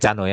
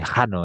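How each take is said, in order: First: The word begins with a hard k sound. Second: The word begins with a throaty h sound. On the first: The speaker calls it wrong. "Tadi bil bacanya Cano ya" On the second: The speaker calls it right. "Huruf hi dibaca seperti seperti seperti Johann Sebastian Bach"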